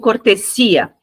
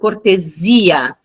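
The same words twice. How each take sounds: First: The middle consonant is a hissing voiceless s. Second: The middle consonant is a buzzing voiced z. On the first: The speaker calls it wrong. "não digo cortesia" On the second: The speaker calls it right. "Eu digo cortesia"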